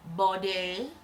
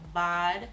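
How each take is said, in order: First: It is said with a longer, fancier vowel. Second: It is said as a short, plain single syllable. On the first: This sounds more upscale. "If you want to really get bougie" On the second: This is the ordinary way to say it. "I believe that's how you say it"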